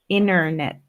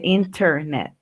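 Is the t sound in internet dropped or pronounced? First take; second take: dropped; pronounced. First: The t is dropped, sounding like inner-net. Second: The t is clearly pronounced in inter-net. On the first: "inglés americano se usa más decir inner" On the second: "en vez de internet"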